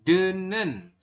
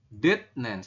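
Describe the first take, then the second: First: The first syllable ends in an n sound. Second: The first syllable ends in a t sound. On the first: The speaker calls it right. "Berubah menjadi apa? Menjadi den, denen" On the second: The speaker calls it wrong. "Anda akan membacanya kayak gini"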